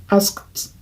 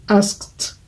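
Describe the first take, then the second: The two takes are said the same way.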